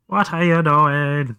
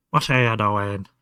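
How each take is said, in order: First: Put-on slow, higher baby-talk question; cutesy pet voice. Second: Said in the usual way. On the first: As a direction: coo it at the kitten, drawn out. Playful question to kitten.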